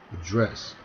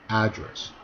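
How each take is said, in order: First: The stress is on the second syllable. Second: The stress is on the first syllable. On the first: It is a verb. "하면 동사" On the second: It is a noun. "명사"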